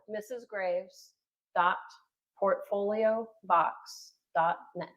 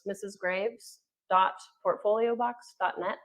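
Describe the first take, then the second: First: It is said slower and louder. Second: It is said at a normal pace.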